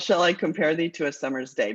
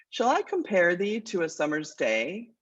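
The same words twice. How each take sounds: First: Said in the usual way. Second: Measured, unhurried reading of the sonnet's first line; poem recitation. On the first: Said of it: "But we call it". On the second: Shown as a demonstration. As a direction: recite it as a verse, letting the line breathe. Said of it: "It goes like this".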